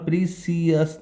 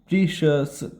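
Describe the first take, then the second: First: The middle consonant is a plain 's' sound. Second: The middle consonant is an 'sh' sound. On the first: The speaker calls it wrong. "प्रीसियस नहीं पढ़ते" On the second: The speaker calls it right. "प्रीशियस पढ़ते हैं, श स श स"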